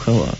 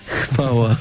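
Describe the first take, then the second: First: The w sound after the h is dropped. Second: The w sound after the h is pronounced. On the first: The speaker calls it wrong. "niekiedy się da słyszeć właśnie hała Bogu, hała. Tak niektórzy mówią" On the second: The speaker calls it right. "trudno jest to W powiedzieć po tym H"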